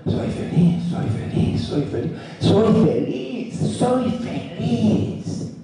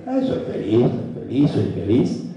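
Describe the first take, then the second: First: "soy feliz" building up, the last ones higher and very slow; felt with emotion. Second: "soy feliz" said flatly, half-hearted, without feeling; flat, going through the motions. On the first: Speaker shows the right way to say it: heartfelt, rising and slowing. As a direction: feel every "soy feliz" in the whole body, stretching the last ones out. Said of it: "Y otra cosa". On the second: Speaker shows the wrong way to say it: half-hearted and flat. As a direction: mumble "soy feliz" like a chore you don't believe. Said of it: "una cosa es decir".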